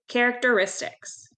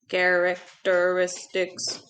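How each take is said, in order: First: It is said in an ordinary speaking voice. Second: It is said in a flat, mechanical robot voice.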